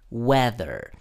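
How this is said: It is said with an American accent. "En inglés americano suelen decirle weather"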